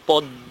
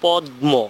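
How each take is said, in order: First: The m sound turns into a doubled d. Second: The m sound is heard after the d. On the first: "কিন্তু আমরা যখন উচ্চারণ করি তখন কিন্তু বলি পদ্ম" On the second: "তার মানে হচ্ছে পদ্ম"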